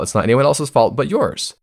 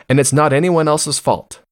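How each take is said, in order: First: Yours hit last with a firm fall; stress on yours. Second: Anyone punched high, then falling; stress on anyone. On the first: Pointing the blame back at listeners, stress on yours. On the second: Telling listeners it's nobody's fault, stress on anyone. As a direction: lean hard on the word anyone. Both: Shown as a demonstration.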